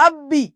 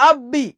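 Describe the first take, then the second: Both takes have the same delivery.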